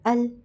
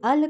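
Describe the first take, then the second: First: The final L is held and stopped without release. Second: The final L is released with a bouncing echo. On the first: The speaker calls it right. "हमने आवाज़ को रोकना है लाम के मखरज पर ले जाकर" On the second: The speaker calls it wrong. "इससे कलकला हो रहा है"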